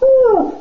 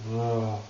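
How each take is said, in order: First: The pitch rises upward. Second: The pitch stays flat and low. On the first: The speaker feels positive and energized. The speaker calls it right. "it goes up" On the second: The speaker feels sad and low. The speaker calls it wrong.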